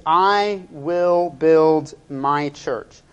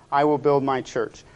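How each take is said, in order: First: "I will build my church" word by word, slowly; emphatic key phrase. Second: Said in the usual way. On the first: Shown as a demonstration. Preacher announcing the sermon's one phrase, slow and emphatic.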